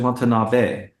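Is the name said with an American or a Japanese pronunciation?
Japanese. The name is said with a Japanese pronunciation. The speaker calls it right. "it's actually"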